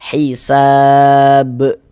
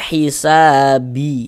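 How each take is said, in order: First: The word ends on a stopped b sound. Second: The word ends with an added i vowel. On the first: The speaker calls it right. "kita baca hisab" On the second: The speaker calls it wrong. "Jangan dibaca hisabi"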